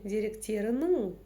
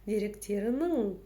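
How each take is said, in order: Both takes have the same delivery.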